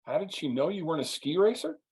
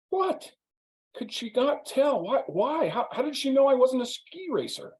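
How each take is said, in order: First: Said in the usual way. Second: Much higher, outraged disbelief; squeaky mock indignation; indignant. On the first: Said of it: "I'm like". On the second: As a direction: play the offended guest who can't believe it. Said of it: "he's very indignant".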